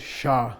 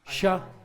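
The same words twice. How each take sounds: First: The syllable is said with a low tone. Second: The syllable is said with a high tone. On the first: "What tone is this?" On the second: "High tone"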